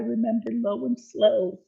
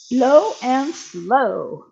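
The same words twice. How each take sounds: First: Said in the usual way. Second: "Low and slow" drawn out, loud and very slow; slow, emphatic. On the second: Shown as a demonstration. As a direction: stretch out "Low and slow" like a slogan.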